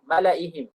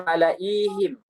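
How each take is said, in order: First: "Malaihim" with a short middle i; silent ya. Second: "malaihim" with a long, held i; read as written. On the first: Teacher shows the unread ya, "Malaihim" with short i. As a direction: keep the i of "Malaihim" brief. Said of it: "Tapi ya-nya tidak dibaca". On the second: Teacher shows the written ya, "malaihim" with long ii. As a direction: draw out the middle i of "malaihim". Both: Shown as a demonstration.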